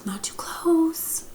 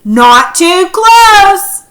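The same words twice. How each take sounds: First: Slow, soft whispered warning; hushed whisper, slowed right down. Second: High, loud and very slow warning; drawn-out shouted warning; yelled warning. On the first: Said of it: "or maybe he said". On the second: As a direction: yell it out as a stern warning. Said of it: "He could have yelled it". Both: Shown as a demonstration.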